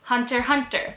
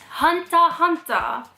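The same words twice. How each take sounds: First: It is said with an English accent. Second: It is said with a Japanese katakana-style accent.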